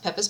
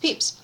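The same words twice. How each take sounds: First: Pepys said as two syllables, PEP-is; wrong pronunciation. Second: Pepys said as one syllable, peeps; correct pronunciation. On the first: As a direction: read Pepys the wrong way as pep-iss, stress on PEP. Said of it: "not pronounced Pepys". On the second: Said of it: "but pronounced Pepys". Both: Shown as a demonstration.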